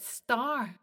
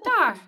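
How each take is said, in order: First: The word starts with a clear s sound. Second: The word starts without any s sound. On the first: "but star" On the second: "it does sound very much like tar"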